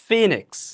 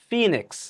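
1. প্রথম স্বরধ্বনিটি 'ee'-র মতো শোনায়। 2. প্রথম স্বরধ্বনিটি 'ee'-র মতো শোনায়।

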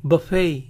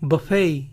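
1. Se dice a la manera inglesa, terminando en ay. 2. Se dice a la manera inglesa, terminando en ay.

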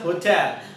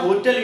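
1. ज़ोर दूसरे अक्षर पर है। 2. ज़ोर पहले अक्षर पर है। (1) "it's a hotel" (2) "it's not a hotel"

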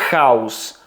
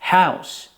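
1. Звук h — твердий, шершавий звук горла. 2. Звук h — м'який, легкий подих. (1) "Ми не вимовляємо ці слова з українським звуком як" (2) "Це звучить як"

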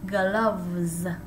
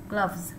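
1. Từ này được đọc chậm, kéo dài. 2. Từ này được đọc ngắn và nhanh. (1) "slow motion lại nha, làm chậm lại nha" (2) "ngắn lại"

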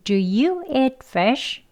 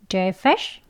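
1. 이 문장은 천천히 말했습니다. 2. 이 문장은 빠르게 말했습니다. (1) "천천히 보겠습니다" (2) "이번엔 빠르게 해볼게요"

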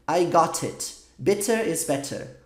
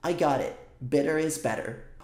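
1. Cada t é um som de t forte e nítido. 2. Cada t é um som suave, parecido com r, com batidinha. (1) "Você soa britânico" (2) "na pronúncia americana, essa frase é falada assim"

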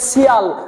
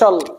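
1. প্রত্যয়টি 'shee-al' হিসেবে উচ্চারিত হয়। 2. প্রত্যয়টি 'shal' হিসেবে উচ্চারিত হয়। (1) "আপনি শিয়াল পড়তে পারবেন না" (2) "সঠিক উচ্চারণ সুন্দর উচ্চারণ হবে শল"

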